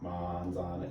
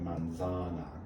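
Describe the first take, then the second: First: The stress is not on the middle syllable. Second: The stress is on the middle syllable. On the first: The speaker calls it wrong. "you don't just say manzana" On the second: The speaker calls it right. "you say manzana. The stress goes on za"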